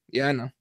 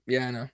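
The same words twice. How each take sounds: First: Soft, resigned acceptance, much softer; quiet resigned yes. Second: Barely voiced, defeated acceptance, much softer; quiet resigned yes. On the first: Retold or imitated. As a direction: murmur it like a beaten fighter accepting defeat. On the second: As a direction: say it as if nodding, knowing it's over. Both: Fighter resigned to his loss.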